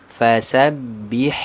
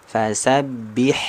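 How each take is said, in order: Both takes have the same delivery.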